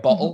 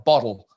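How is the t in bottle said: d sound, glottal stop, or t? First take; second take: glottal stop; d sound. First: The t is replaced by a glottal stop. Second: The t is pronounced like a d. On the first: The speaker is talking quickly. "I'll do the glottal stop and get rid of the T's" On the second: The speaker picked up an Australian habit. "it turned into D's"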